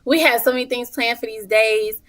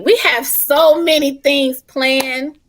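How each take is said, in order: First: Said in the usual way. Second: Slow, higher and louder, every word stretched; drawn-out emphasis. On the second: Shown as a demonstration. Selling the moms' retreat to the hosts, slow and emphatic. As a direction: savor it, hype it up.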